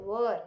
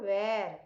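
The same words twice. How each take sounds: First: "were" with a central "er" vowel; correct pronunciation. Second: "where" with an open "air" vowel; wrong pronunciation. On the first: Teacher correcting pupils after "not where", correct pronunciation. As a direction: say "were" rhyming with "her". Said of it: "it is were". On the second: Teacher warning pupils what it is not, wrong pronunciation. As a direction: slowly say "where", rhyming with "air". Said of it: "It is not where". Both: Shown as a demonstration.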